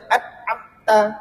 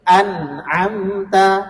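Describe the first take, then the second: First: The n is said with no nasal hum. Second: The n has a brief nasal hum. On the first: The speaker calls it wrong. "Kalau tanpa dengung kita baca" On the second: The speaker calls it right. "ada juga, tapi cuman sebentar saja"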